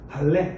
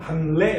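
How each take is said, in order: First: The middle sounds are a doubled l. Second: The middle sounds are n followed by r. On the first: "그냥 발레 이렇게 읽으시면 됩니다" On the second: "글자로는 반례 이렇게 되는데"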